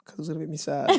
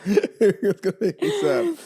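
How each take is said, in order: First: Said in the usual way. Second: Laughing. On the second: Real, not acted. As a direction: repeat it through a high burst of laughter. Repeats own line laughing.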